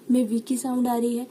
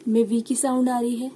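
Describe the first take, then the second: No difference in how they are said.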